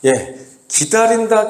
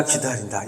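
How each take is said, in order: First: 기다린다 stressed and drawn out, higher; 기다린다 said high and slow to stress it; emphatic repeat. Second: 기다린다 said much lower and softer; 기다린다 dropped low and quiet as the echo dies; fading repeat. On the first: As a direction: lean hard on 기다린다, slowly. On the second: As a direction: let 기다린다 fade almost to nothing. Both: Shown as a demonstration. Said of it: "기다린다라는 말이 이제 계속해서 나오는데".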